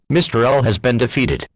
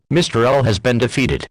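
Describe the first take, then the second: No difference in how they are said.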